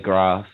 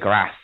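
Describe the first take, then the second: First: It has a long southern English vowel. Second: It has a short northern English vowel.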